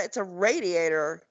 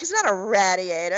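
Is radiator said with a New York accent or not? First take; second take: not New York; New York. First: Radiator is said the speaker's own way. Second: Radiator is said the New York way.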